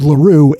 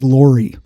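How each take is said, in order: First: The name is pronounced like 'LaRue'. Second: The name is pronounced like 'Laurie'. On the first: The speaker calls it right. "actually LaRue" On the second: The speaker calls it wrong. "I mispronounced William L. Weller's middle name incorrectly. I pronounced it Laurie"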